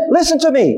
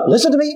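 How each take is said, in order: First: Higher, pressed second "Listen to me" with a hard "to"; father insisting the second time; repeated insistent command. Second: Higher, firm call of listen to me; a father repeating himself; mock fatherly command. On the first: Retold or imitated. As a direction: say it again, firmer, to a son who won't obey. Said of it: "so I wanna tell him again". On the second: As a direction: call it to a son who isn't obeying. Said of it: "Why do I say to my son".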